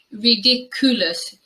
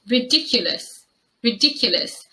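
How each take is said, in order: First: "ridiculous" without the y glide, ri-dik-OO-luhs; common mispronunciation. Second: "ridiculous" with a y glide, ri-DIK-yuh-luhs; correct pronunciation. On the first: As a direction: say "ridiculous" with koo as third syllable. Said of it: "the mispronunciation mostly happens in the third syllable". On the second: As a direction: model "ridiculous" with a schwa in the third syllable. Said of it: "This word is pronounced". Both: Shown as a demonstration.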